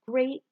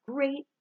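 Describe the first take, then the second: No difference in how they are said.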